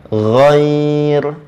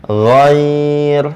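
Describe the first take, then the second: No difference in how they are said.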